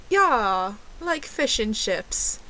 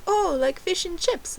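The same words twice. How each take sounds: First: Slow, put-on British accent. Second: High mock American waiter; American accent. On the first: Fake Brit confirming her order to the waiter, slow mock British accent. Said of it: "ordered my drink in a British accent". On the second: Waiter checking her fish order, high imitated American accent. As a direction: imitate a questioning American waiter, pitched right up. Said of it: "That's my American accent".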